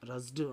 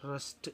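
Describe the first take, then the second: First: The ending is a voiced d sound. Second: The ending is a voiceless t sound. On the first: The speaker calls it wrong. "అని కాదు" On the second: The speaker calls it right. "దాన్ని టీ పలకాలి"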